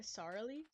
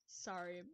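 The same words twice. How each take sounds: First: "sorry" slipped into "sar-lee", questioning; slipped pronunciation. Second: Said in the usual way. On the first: Real, not acted. Streamer catching a slip, "sorry" said as sar-lee. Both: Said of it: "Uh, sorry?".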